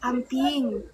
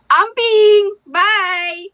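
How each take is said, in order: First: Said in the usual way. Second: Loud, higher playful farewell; big mock send-off shout; called-out goodbye. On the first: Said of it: "amping says goodbye". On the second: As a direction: call a goodbye across the room. Calling out the new goodbye word.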